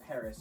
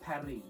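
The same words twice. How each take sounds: First: Paris is said with English sounds, ending in -is. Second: Paris is said with French sounds, like Pa-ree. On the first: It avoids sounding pretentious. The speaker calls it right. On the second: It sounds pretentious. The speaker calls it wrong.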